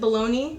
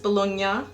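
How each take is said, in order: First: It is said the everyday American way. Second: It is said the Italian way. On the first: This is the common name for the lunch meat. "we pronounce it bologna" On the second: This matches the name of the Italian region. "kind of like the region in Italy"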